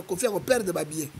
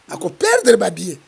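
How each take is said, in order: First: Said in the usual way. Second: "Ako perdre ba billet" said again louder, with a falling end; emphatic repeat. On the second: Shown as a demonstration. Warning listeners about Kofi's money, louder emphatic repeat.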